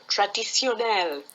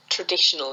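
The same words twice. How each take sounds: First: Put-on French accent, stressed on the last syllable. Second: Said in the usual way. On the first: Helper gives the French word to a stuck speaker, French accent. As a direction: say it with French pronunciation. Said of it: "say it in a French accent". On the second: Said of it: "same word with a different accent".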